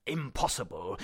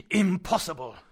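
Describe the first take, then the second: First: Said in the usual way. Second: Louder, higher second insistence; emphatic repeat. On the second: Acted. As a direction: stamp the word down firmly. Uncle repeats it more forcefully.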